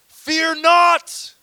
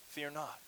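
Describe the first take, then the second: First: It is said as a stern command. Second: It is said as a gentle invitation.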